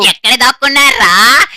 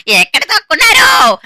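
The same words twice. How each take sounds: First: Loud calling with a rising end. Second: Angry shout. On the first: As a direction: call out across the map to the hiders. Killer calling out to hiders. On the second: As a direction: bellow it, losing patience. Killer yelling for hiders. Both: Acted.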